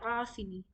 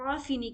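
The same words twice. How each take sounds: First: It starts with a deep sound from mid-throat. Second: It starts with a light glottal stop. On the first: The speaker calls it right. "आइन को हम बेहतरीन तरीके से हलक के बीच वाले हिस्से से निकालेंगे" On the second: The speaker calls it wrong. "आफिनी नहीं कहेंगे"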